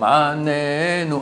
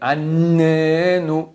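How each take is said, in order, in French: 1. Le son N est prononcé simplement, sans insistance supplémentaire. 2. Le son N est prononcé avec une forte insistance. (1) "Anenu signifie réponds-nous" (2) "un accent dans le N"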